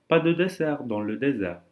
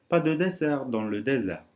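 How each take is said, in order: The two takes are said the same way.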